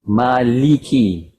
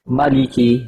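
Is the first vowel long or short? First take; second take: long; short. First: The first vowel is held long. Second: The first vowel is kept short. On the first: This is the common reading with the alif. "Ma is mat asli tu harakat" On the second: This is the reading without the alif.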